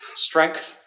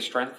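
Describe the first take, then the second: First: The word is said with a G sound. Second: The word is said without a G sound. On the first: The speaker calls it right. "you have to pronounce the G" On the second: The speaker calls it wrong. "because I just say strength"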